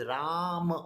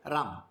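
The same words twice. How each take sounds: First: "Ram" with Ra stretched long, then short "ma". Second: "Ram" as one short syllable, no final vowel; clipped wrong form. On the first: Teacher correcting the short form, Ra held long. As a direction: hold the vowel of "Ram" long, release on "ma". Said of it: "that is not short". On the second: Teacher showing what we don't say, "Ram" cut short. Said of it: "We don't say Ram". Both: Shown as a demonstration.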